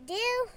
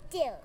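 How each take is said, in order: First: DEAL pitched high with a rising tune; "Deal?" as a high rising question; questioning offer. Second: DEAL low and softer, falling; "Deal." as a low falling statement; agreeing answer. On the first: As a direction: ask "Deal?" lifting it sharply upward. Villain offers terms, awaits agreement. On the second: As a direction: settle "Deal." downward as a firm answer. Answer accepting the offered terms. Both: A narrator's reading.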